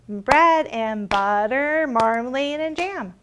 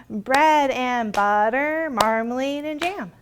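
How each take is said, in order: Both takes have the same delivery.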